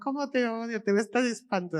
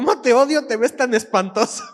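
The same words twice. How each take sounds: First: It is said in a warm, teasing tone. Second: It is said in a harsh, insulting tone. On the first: The speaker is showing love. "si lo lees de otra manera" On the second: The speaker truly means the insult. "tú lees ese mensaje, ¿qué vas a pensar?"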